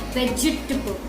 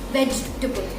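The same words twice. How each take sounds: First: The unstressed vowel is a short schwa. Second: The unstressed vowel is a short schwa.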